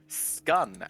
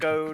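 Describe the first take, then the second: First: The vowel rhymes with the one in done. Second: The vowel rhymes with the one in alone. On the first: "scun as in done" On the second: "scone as in alone"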